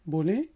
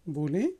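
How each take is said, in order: The two takes are said the same way.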